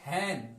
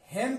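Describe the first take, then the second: First: हैन with an open ai vowel, said softly and lower; correct pronunciation. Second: हेन said with a short e, as people usually read it; the wrong way people say हेन, short e sound; common mispronunciation. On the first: Teacher to students, giving the right form, हैन with open ai. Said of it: "हालांकि उसका उच्चारण क्या होगा?". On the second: Teacher to students, showing the common mistake, हेन said with short e. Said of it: "हेन पढ़ते हैं लोग". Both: Shown as a demonstration.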